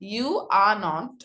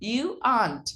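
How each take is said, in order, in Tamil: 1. "Not" தனி முழு வார்த்தையாக சொல்லப்படுகிறது. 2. "Not" குறைக்கப்பட்டு "are" உடன் ஒட்டி சொல்லப்படுகிறது.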